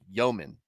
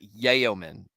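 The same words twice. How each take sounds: First: The first syllable sounds like 'yo'. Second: The first syllable does not sound like 'yo'. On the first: The speaker calls it right. "like yo man" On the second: The speaker calls it wrong. "not yeoman"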